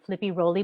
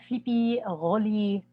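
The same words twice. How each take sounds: First: It is said in the speaker's ordinary accent. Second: It is said with a put-on French accent. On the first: "they will definitely say um" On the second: "but they'll say it like this"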